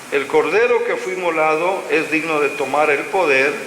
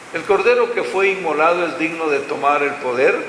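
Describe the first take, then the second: Both takes have the same delivery.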